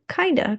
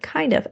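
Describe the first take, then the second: First: The f is dropped, giving a reduced form. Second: The f is pronounced in the full form.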